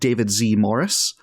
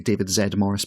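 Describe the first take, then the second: First: The letter Z is said the American way. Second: The letter Z is said the British way.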